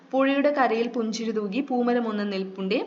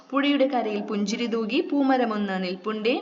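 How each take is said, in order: No difference in how they are said.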